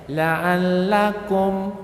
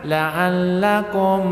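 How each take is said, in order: First: The final m is pronounced clearly and distinctly. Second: The final m is hidden or merged into the next sound. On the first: The speaker calls it right. "idhar syafawi, mimnya jelas" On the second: The speaker calls it wrong. "bukan ikhfa, bukan idgham"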